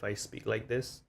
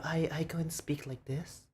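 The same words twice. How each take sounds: First: With-friends voice. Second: Higher-pitched voice for strangers; meeting-new-people voice. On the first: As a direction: drop back down, talking to familiar friends. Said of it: "when I'm with my friends". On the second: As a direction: lift the pitch for someone you just met. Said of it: "When I see a new people". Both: Shown as a demonstration.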